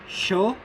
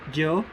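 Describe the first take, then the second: First: The consonant sounds like English sh. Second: The consonant sounds like English j. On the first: "The S H-like sound" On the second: "The J-like sound"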